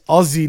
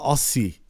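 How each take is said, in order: First: The middle consonant is a buzzing Z sound. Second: The middle consonant is a hissing S sound. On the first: The speaker calls it right. "And it's Aussie, With a Z" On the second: The speaker calls it wrong. "not Aussie"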